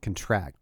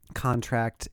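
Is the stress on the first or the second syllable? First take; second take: second; first. First: The stress is on the second syllable. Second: The stress is on the first syllable. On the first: It is a verb: to make smaller or to agree. "If it's on the second part, it's a verb" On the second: It is a noun: an agreement. "if the emphasis is on the first part ... The first one is a noun"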